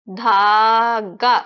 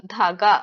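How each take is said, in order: First: धागा as a long, loud "dhaaa", then "ga"; syllable by syllable. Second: Said in the usual way. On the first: Shown as a demonstration. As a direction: hold the first syllable of धागा, then add the last. Teacher breaks word into sounds.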